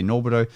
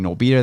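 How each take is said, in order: First: It is said so it does not rhyme with libido. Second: It is said to rhyme with libido. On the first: The speaker calls it wrong. "they say Norbido" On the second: The speaker calls it right. "instead of saying Norbido"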